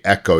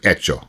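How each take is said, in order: First: It is said with an English pronunciation. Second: It is said with an Italian pronunciation. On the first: The speaker calls it wrong. "in Italian, you wouldn't say echo" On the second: The speaker calls it right. "it's echo"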